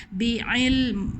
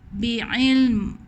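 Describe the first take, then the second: Both takes have the same delivery.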